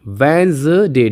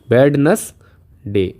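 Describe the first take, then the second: First: वेंसडे said slowly as "wenz-day", no d; correct Wednesday. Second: वेडनेसडे sounded out slowly, every letter spoken; spelling-style Wednesday. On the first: Teacher models the right pronunciation slowly for students. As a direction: stretch वेंसडे slowly, d silent. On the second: Teacher shows the written form to the class, slow and spelled out. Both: Shown as a demonstration. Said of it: "इसका उच्चारण आता है वेंसडे".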